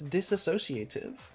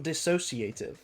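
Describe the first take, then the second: First: An extra 'a' syllable comes after 'dis'. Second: No extra syllable comes after 'dis'. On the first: The speaker calls it right. "It's disassociative" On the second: The speaker calls it wrong. "It's not dissociative"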